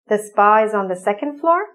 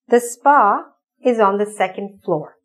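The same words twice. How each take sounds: First: It is said with question intonation. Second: It is said with statement intonation. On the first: It asks for clarification. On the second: It states a fact.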